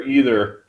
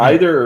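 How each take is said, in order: First: Either starting with an EE sound; alternate pronunciation. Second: Either starting with an EYE sound; alternate pronunciation. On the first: Joking about two ways to say it, either as EE-ther. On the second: Joking about two ways to say it, either as EYE-ther. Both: Shown as a demonstration. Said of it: "how do you pronounce that".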